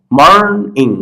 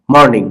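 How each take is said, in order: First: morning stretched into two parts, mourn and ইং; split into syllables. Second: Said in the usual way. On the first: Shown as a demonstration. Teacher dividing each word for learners, syllable by syllable. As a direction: draw out mourn, then add ইং separately. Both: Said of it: "আমি প্রত্যেকটা ভাগ করছি".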